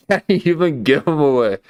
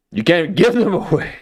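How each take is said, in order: First: Said in the usual way. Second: Laughing. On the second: Real, not acted. Laughing at his own joke.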